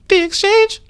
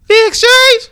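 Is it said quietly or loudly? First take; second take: quietly; loudly. First: It is said weakly and quietly. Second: It is said louder and stronger.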